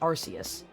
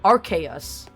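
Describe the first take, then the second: First: The name begins with a soft 'ar-s' sound. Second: The name begins with a hard 'ark' sound. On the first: This is what everybody actually says. "Everybody calls it Arceus" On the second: This is the official pronunciation. "the official pronunciation of Arceus is Arc Arceus"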